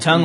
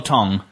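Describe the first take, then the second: First: "Tongue" rhyming with "sung"; short u in tongue. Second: "tong" rhyming with "song"; o vowel in tong. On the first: Host quizzes friends on tongue or tong, uh-vowel "Tongue". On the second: Host quizzes friends on tongue or tong, o-vowel "tong". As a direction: say "tong" with a short o. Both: Shown as a demonstration.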